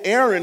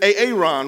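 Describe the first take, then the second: First: The name is pronounced the ordinary, familiar way. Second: The name is pronounced in an unusual, distorted way. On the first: This is how most people say the name. The speaker calls it right. "like we would pronounce them in our predominant culture" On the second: This imitates a character's odd pronunciation. The speaker calls it wrong. "he says Aaron"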